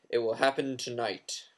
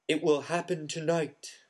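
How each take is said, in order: First: It is read in a different, harsh voice. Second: It is read in Trelawney's usual voice.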